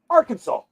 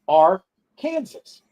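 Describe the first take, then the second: First: The word ends with a saw sound. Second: The word ends like the name Kansas. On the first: This is how people actually say it. "they pronounce it Arkansas" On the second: This is how the spelling suggests it sounds. "it looks like our Kansas"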